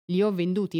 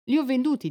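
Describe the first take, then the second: First: Said in the usual way. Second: Higher and louder, hammering it home; urgent, raised insistence; insistent shout. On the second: A narrator's reading. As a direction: cry it out to make him hear. Della insists she sold her hair.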